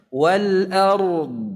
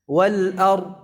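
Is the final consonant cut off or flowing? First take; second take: flowing; cut off. First: The final consonant flows out audibly. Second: The final consonant is cut off abruptly. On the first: The speaker calls it right. "mengalir suaranya" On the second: The speaker calls it wrong. "tidak macet seperti itu"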